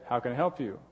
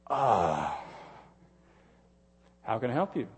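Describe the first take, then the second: First: The tone sounds warm and kind. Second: The tone sounds irritated and unkind. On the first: The speaker genuinely wants to help. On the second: The speaker does not really want to help.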